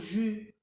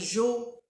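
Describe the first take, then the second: First: The word has a u vowel sound. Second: The word has an o vowel sound. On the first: "Il faut pas dire jo ou jus. Non, c'est faux" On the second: "Il faut pas dire jo ou jus. Non, c'est faux"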